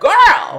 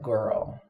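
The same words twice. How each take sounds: First: It sounds excited and delighted. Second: It sounds disapproving and questioning. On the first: Something is amazing. "this card's amazing" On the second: The other person is doing something wrong. "what you doing?"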